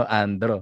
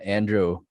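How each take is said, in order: First: Andro said the Filipino way; "Andro" with a plain Filipino tapped r and full o; Filipino pronunciation. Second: Andrew said the American way; "Andrew" with an American r and oo ending; American pronunciation. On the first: Host showing how own name sounds in Filipino, Filipino pronunciation. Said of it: "Pag pinronounce mo sa Filipino". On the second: Host showing what they call him in the US, American pronunciation. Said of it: "if I go there in the U S". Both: Shown as a demonstration.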